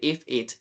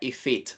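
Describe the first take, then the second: First: The two words are said separately, unlinked. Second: The two words are joined smoothly together. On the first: The speaker calls it wrong. "Para no decir" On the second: The speaker calls it right. "unir el sonido de la consonante, de la última consonante, con el sonido de la primera vocal"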